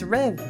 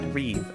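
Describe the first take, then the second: First: The vowel sounds like 'eh'. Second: The vowel sounds like 'ee'. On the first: The speaker calls it right. "it's Rev" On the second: The speaker calls it wrong. "not Reeve"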